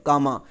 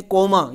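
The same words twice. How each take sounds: First: कामा said with a clear open a in both syllables, ka-ma; the right way, कामा with open a sounds; correct pronunciation. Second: कोमा said with a long o, as people often say it; the common wrong way, कोमा with an o sound; wrong pronunciation. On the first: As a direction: say कामा, not कोमा. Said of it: "ये काम, कामा है". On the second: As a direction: mispronounce it as कोमा, o as in "coma". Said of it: "ये कोमा नहीं है". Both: Shown as a demonstration.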